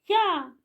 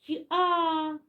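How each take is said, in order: First: The two sounds are said fast as one. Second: The two sounds are said slowly and apart. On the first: "будемо вимовляти швидше і швидше" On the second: "Він іде і промовляє звук"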